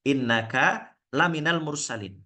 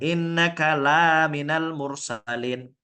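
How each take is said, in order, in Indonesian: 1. Vokal pada 'la' pendek. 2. Vokal pada 'la' panjang. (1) "Lanya itu pendek" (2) "ada alif, lanya panjang"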